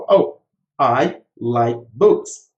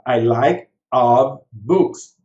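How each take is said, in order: First: Slow model sentence. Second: Slow mock wrong sentence. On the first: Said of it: "Então". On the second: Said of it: "eu falaria assim". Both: Shown as a demonstration.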